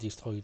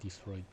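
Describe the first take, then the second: First: The R is pronounced the French way. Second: The R is pronounced the English way. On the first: The speaker calls it wrong. "pronounce the R in a French way" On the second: The speaker calls it right. "I wanted to say destroyed"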